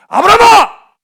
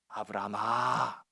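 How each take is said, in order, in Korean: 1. 이름을 다급하고 날카롭게 불러요. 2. 이름을 따뜻하고 부드럽게 불러요. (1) "긴박하고 다급한 상황 속에서 아브라함을 멈춰 세울 때 ... 직접적으로 부르시는" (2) "태도가 달라요. 어조가 달라요. 그 따뜻함의 정도가 달랐다"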